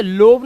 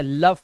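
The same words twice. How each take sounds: First: "लोव" with a long O; wrong pronunciation. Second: "लव" with a short uh vowel, lower; correct pronunciation. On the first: Teacher shows the misreading "लोव", wrong pronunciation. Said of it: "लोव नहीं पढ़ते". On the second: Teacher models exception "लव", correct pronunciation. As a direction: say love as "लव", like luv. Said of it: "इसे लव पढ़ते हैं". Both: Shown as a demonstration.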